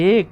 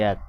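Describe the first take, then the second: First: First এক as "ek", with closed e; close-e pronunciation. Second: Second এক as "æk", with open æ; open-vowel pronunciation. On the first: Teacher offering learners a choice, এক as close-e "ek". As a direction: say এক with the e of its spelling. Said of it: "উচ্চারণ করি কিভাবে". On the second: Teacher offering learners a choice, এক as open "æk". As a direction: say এক with the vowel of "cat". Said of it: "এভাবে উচ্চারণ করি না". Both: Shown as a demonstration.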